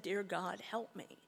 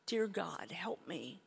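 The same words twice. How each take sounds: First: Said in the usual way. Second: Breathy whispered prayer, barely voiced; whispered plea. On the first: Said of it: "But I said". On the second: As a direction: beg God under your breath. Desperate plea in retold despair.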